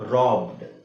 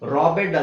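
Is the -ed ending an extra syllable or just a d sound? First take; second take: just d; extra syllable. First: The ending is a plain d sound. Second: The ending is said as an extra syllable. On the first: The speaker calls it right. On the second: The speaker calls it wrong.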